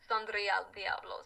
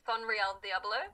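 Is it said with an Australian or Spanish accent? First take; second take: Spanish; Australian. First: It is said with a Spanish accent. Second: It is said with an Australian accent.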